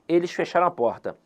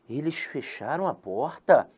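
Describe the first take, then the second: First: It is said as a plain statement. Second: It is said as a question.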